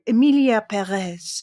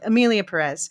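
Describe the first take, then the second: First: It is said in a French accent. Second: It is said in an American accent.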